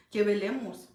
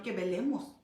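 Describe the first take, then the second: First: "velemos" said again, louder and firmer; preacher pressing the point, louder; louder repeat. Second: Said in the usual way. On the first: Shown as a demonstration. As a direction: hammer it home. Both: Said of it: "repeated exhortation".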